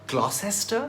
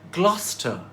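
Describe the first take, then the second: First: It does not rhyme with Foster. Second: It rhymes with Foster. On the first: The speaker calls it wrong. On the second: The speaker calls it right. "So Gloucester rhymes with Foster"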